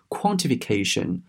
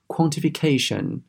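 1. 重音落在词的前面。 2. 重音落在词的后面。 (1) "你不要把它读成是quantification，这样子呢是不对的" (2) "正确的读法应该是quantification"

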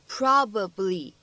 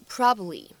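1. b音完全爆破，听得很清楚。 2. b音只做了口型，没有完全爆破。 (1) "你不需要读成probably" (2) "你可以直接读成probably。你会感觉这样一个b 的发音啊，它只做了口型，并没有完全读出来"

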